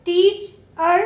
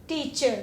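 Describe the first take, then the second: First: teacher broken into टीच, pause, अर; teacherly teacher in two distinct parts; split syllables. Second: Said in the usual way. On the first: Shown as a demonstration. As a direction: separate the suffix अर in teacher. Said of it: "अलग सा कोई word नहीं है". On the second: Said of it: "मिलकर ही बनेगा".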